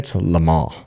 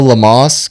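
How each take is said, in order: First: It is said with a French pronunciation. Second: It is said with an anglicized pronunciation. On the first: The speaker calls it right. "If you want to say it the proper way" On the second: The speaker calls it wrong. "because you said it wrong"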